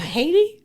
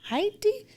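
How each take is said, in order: First: The name is said with an American accent. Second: The name is said without an American accent. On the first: The speaker calls it wrong. "not Haiti. Okay, with my American accent" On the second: The speaker calls it right. "It's Haiti"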